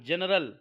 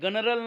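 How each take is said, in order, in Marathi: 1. शब्दाची सुरुवात ज आवाजाने होते. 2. शब्दाची सुरुवात कडक ग आवाजाने होते.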